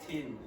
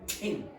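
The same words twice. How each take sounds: First: The t is said without a puff of air. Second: The t is said with a puff of air. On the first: The speaker calls it wrong. "It's not tin" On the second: The speaker calls it right. "that must be aspirated"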